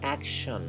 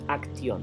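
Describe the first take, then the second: First: The middle is said with a 'sh' sound. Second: The middle is said with a 'ks' sound. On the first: The speaker calls it right. "es action" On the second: The speaker calls it wrong. "no es acción"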